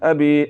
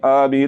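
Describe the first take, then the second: First: The first vowel is short and quick. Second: The first vowel is drawn out long. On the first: The speaker calls it right. "जल्दी से पढ़ना है" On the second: The speaker calls it wrong. "तो ये गलत है"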